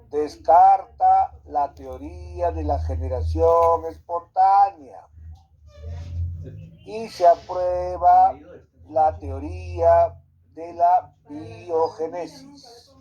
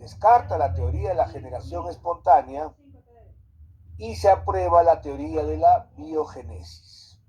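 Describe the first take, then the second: First: It is said slowly. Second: It is said at normal speed.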